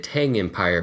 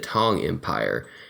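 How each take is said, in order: First: The vowel is a flat 'a', like 'tang'. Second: The vowel is an open 'ah', like 'tong'. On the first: The speaker calls it wrong. "I've been saying that terribly wrong" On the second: The speaker calls it right. "It's the Tong Empire"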